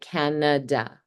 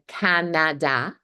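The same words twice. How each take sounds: First: The first syllable is stressed; later vowels are reduced. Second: Every vowel is said fully, as it looks. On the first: The speaker calls it right. "the next two vowel sounds, they're reduced to the schwa" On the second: The speaker calls it wrong. "read Canada as it's written ... which is not how we actually say it"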